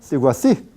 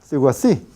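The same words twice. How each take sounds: The two takes are said the same way.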